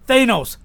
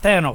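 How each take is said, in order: First: The first vowel sounds like 'ay'. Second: The first vowel sounds like 'ah'. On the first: The speaker calls it right. "it's Thanos" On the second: The speaker calls it wrong. "not Thanos"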